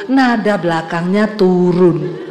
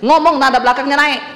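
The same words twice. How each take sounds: First: "turun" drawn out and sinking low; slow down and drop the pitch on "turun"; falling ending. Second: "naik" kept up at the end; rising ending. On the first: ("turun" diulur dengan nada menurun) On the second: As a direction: finish with "naik" lifted, not falling. (nada "naik" diangkat di akhir) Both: Shown as a demonstration.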